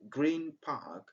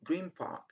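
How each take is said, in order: First: Green ends with an n sound. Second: Green ends with an m sound. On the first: The speaker calls it wrong. "Instead of saying" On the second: The speaker calls it right. "we say ... and it's good, it's natural"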